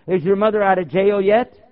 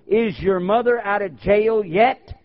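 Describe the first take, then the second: First: Rising trick question, a bit louder; spring the trap with a rise at the end; pointed question, rising at the end; loaded question demo. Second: Rising trick question, slow and pointed; loaded question demo. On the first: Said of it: "Ask them". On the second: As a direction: ask it slowly, setting the trap. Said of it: "what to tell people when they pull that". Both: Shown as a demonstration.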